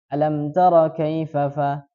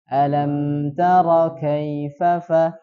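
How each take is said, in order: First: The M sound is cut short abruptly. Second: The M sound is prolonged with flowing air. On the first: The speaker calls it wrong. "Jadi cara bacanya tidak alam tara kaifa fa" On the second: The speaker calls it right. "tapi dialirkan"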